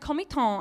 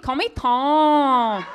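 First: It is said in a plain English accent. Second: It is said with a put-on Chinese accent.

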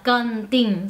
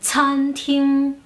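First: The word starts with a hard k sound. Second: The word starts with a puffed ts sound. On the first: The speaker calls it wrong. "la CA no se pronuncia cantin" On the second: The speaker calls it right. "Es explosiva"

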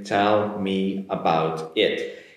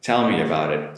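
First: The words are said slowly, one at a time. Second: The words are said at natural speed, linked together. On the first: "I'll say it slowly, catch every word individually" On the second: "And if I say it naturally"

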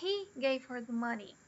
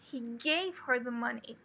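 First: The stress falls on the word he. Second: The stress falls on the word gave. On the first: He, not the speaker, gave her the money. "I didn't give her the money" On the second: The money was given, not lent. "He didn't lend her the money"

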